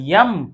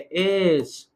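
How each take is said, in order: First: The name begins with a y-sound. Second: The name begins with a plain vowel. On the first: The speaker calls it wrong. "नब्बे percent लोग इसको यम बोलते हैं" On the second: The speaker calls it right. "ये आपका एस है"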